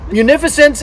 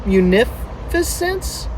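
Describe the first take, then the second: First: Said in the usual way. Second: "munificence" slow and in broken pieces, questioning; sounding it out. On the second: Real, not acted. Reader unsure if it is a word, sounding out "munificence" slowly. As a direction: feel your way softly through "munificence". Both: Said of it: "Is that a word?".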